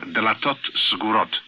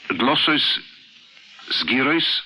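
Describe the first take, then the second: First: It uses the Sephardic Hebrew pronunciation. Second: It uses the Ashkenazic Hebrew pronunciation.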